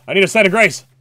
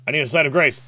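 First: Louder, higher desperate repeat; frantic self-talk; more urgent. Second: Said in the usual way. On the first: Real, not acted. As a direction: plead it again with rising urgency.

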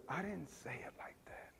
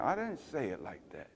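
First: Whispered, gentle correction; tender whisper. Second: Gently correct, no force; softer, gentle tone. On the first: The Lord showing the pastor a tender tone, whispering. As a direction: whisper it like a lover, not a judge. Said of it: "This is tender". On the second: The Lord correcting the pastor, quietly. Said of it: "You have the wrong tone". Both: Retold or imitated.

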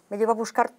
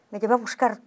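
The two takes are said the same way.

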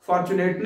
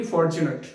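First: फॉर्च्यूनेट said wrongly as "farchuneet" with a flat open a; wrong pronunciation. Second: फॉर्च्यूनेट said "for-chu-nət" with a rounded o; correct pronunciation. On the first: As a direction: mispronounce फॉर्च्यूनेट as "far-chu-neet". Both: Shown as a demonstration. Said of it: "फॉर्च्यूनेट नहीं".

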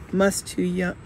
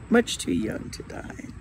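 First: Said in the usual way. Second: Whispered, a little higher and much softer; sad whisper. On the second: A narrator's reading. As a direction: breathe it out as a sorrowful aside. Sad man repeats, corrected.

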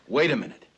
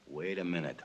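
First: A quick call to stop and think; the idea hits him, so he stops everyone; sudden wait. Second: Low and soft, musing to himself; the plan forms as he mutters it to himself; quiet realization. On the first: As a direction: snap to attention on a sudden thought. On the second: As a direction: let the thought dawn under your breath. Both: Acted. Sudden idea, repeated to himself.

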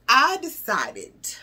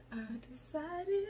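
First: Slow and deliberate, each syllable weighted; slow emphatic. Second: Unvoiced stage whisper. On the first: Acted. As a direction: she lays out her big decision to viewers, slow and weighty. Dramatic buildup to her resolution. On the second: She repeats her resolution to viewers in a whisper. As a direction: lean in and whisper it like a secret.

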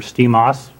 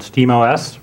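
First: "Steam O S" run together as one word, like "steam-oss"; alternative pronunciation. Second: "Steam O S" with O and S said as two letters; letters spelled out. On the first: Conference speaker offering the other way to say it, alternative pronunciation. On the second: Conference speaker introducing the system's name, letters spelled out. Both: Shown as a demonstration. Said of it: "depending on how you want to pronounce it".

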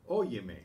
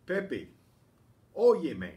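First: Said in the usual way. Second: Loud call of óyeme, as if across a room. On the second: Shown as a demonstration. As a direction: shout óyeme to get Pepe's attention. Calling out to Pepe.

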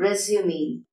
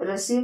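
First: "റെസ്യൂമി" ending in "mee"; three syllables in "റെസ്യൂമി"; correct pronunciation. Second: "റെസ്യൂം" ending on m; common mispronunciation. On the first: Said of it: "correct pronunciation എന്താണ്". ("റെസ്യൂമി", അവസാനം മീ ശബ്ദം) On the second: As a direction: drop the last vowel, "റെസ്യൂം". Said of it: "അത് തെറ്റാണ്". ("റെസ്യൂം", അവസാന സ്വരം ഇല്ലാതെ) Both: Shown as a demonstration.

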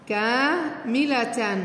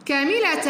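First: كاملة drawn out very slowly, syllable by syllable; slowly stretched out. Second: Said in the usual way. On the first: Shown as a demonstration. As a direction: stretch كاملة out slowly so the class can follow. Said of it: "teacher stretches word for class". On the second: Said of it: "teacher reads word normally".

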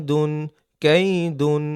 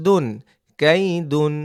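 No difference in how they are said.

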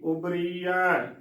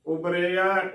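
First: ਉਬਰੀਆ drawn out slowly as "ubree-ya"; slow, long ee in ਉਬਰੀਆ; wrong bihari sound. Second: ਉਬਰਿਆ as "ubre-ya"; correct sihari sound. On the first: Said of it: "ਰਾਰੇ ਨੂੰ ਬਿਹਾਰੀ ਰੀ". (ਉਬਰੀਆ ਹੌਲੀ, ਲੰਮੀ "ਰੀ" ਨਾਲ) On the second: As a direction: keep ਉਬਰਿਆ on "re", without the long ee. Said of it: "ਰਾਰੇ ਨੂੰ ਸਿਹਾਰੀ ਰੇ". (ਉਬਰਿਆ ਵਿੱਚ ਰਾਰੇ ਦੀ "ਰੇ") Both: Shown as a demonstration.

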